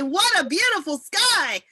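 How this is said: It is said in an excited tone.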